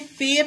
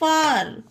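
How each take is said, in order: First: The vowel sounds like 'eh'. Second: The vowel sounds like 'ah'. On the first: The speaker calls it wrong. "इसे फेर नहीं पढ़ेंगे" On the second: The speaker calls it right. "ए के बाद just आर आता है तब ए का उच्चारण आ हो जाता है"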